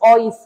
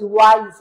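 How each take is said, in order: First: The word begins with a plain 'o' vowel. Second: The word begins with a 'w' glide sound. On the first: The speaker calls it wrong. "আপনি যেটা লিখছেন ওটা হচ্ছে অইস" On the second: The speaker calls it right. "ওয়াইজ এর উচ্চারণ ওয়াই দিয়ে শুরু"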